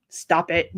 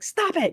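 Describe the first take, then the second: First: Low-key, firm mock order; very serious. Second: High-pitched mock telling-off; mock scolding. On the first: Moderator shows how seriously she corrects chat, firm. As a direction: deliver it deadpan and firm. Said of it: "I'm very serious when I do". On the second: Moderator retells telling off a lady, high mock scolding.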